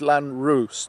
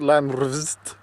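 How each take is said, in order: First: The second vowel sounds like 'oo' in 'moon'. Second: The second vowel sounds like 'uh' in 'us'. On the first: The speaker calls it right. "It's the oo sound instead of a us sound" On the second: The speaker calls it wrong. "it's not Landrust"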